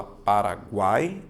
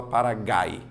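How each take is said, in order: First: "Paraguai" with a sounded u, gu as gw; U pronounced. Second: "Paragai" ending in gai, no w sound; U left silent. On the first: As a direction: say "Paraguai" slowly with a clear gwai ending. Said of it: "a letra U, ela é pronunciada". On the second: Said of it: "ou você fala Paragai". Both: Shown as a demonstration.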